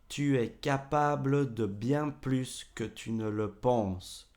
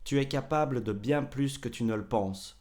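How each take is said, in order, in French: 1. Chaque voyelle est prononcée à un rythme posé. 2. On la dit vite, avec le E supprimé.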